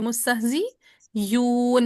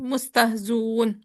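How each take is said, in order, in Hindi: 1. 'un' से पहले हमज़ा की जगह 'y' की आवाज़ आती है। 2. हमज़ा गिर जाता है, और सीधे 'zun' बनता है। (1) "हमजा मजमूम की बजाय या मजमूम पढ़ देंगे" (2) "हजफ जब करेंगे तो हमजा जाते जाते अपनी हरकत जा को दे जाएगा"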